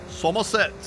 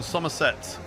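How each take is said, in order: First: Put-on Somerset regional accent; terrible Somerset accent. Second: Said in the usual way. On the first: Streamer reading viewers' hometowns, terrible Somerset accent. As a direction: have a bad go at a Somerset accent. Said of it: "that was a terrible accent".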